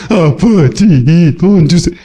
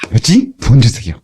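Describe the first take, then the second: First: Slow, sulky plea with no joy; gloomy mumbled begging. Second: Light, glad request; cheerful asking. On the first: Pretend. Preacher shows the joyless way to ask God for money. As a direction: drag the words out like a reluctant child. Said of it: "그냥 팻". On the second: Shown as a demonstration. Preacher shows how to ask God joyfully. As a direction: ask brightly, happily expecting. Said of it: "구할 때는 기쁘게".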